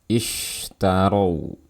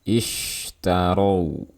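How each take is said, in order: No difference in how they are said.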